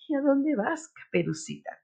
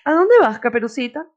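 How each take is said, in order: First: It is said in a sweet, soft voice. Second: It is said in a plain, neutral voice.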